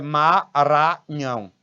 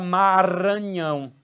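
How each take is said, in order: First: Each syllable is said separately, without linking. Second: The syllables run smoothly together into each other. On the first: This is how a person from Maranhão says it. "Ele pronuncia a, a, as sílabas, né, sem juntar com a sílaba seguinte" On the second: This is how people in most states say it. "ele não fala Maranhão"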